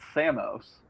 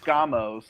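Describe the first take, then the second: First: No k sound follows the s. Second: A k sound follows the s. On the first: "if you get rid of that K, it's Samos" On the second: "it is, uh, Skamos"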